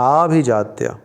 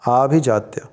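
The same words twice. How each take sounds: Both takes have the same delivery.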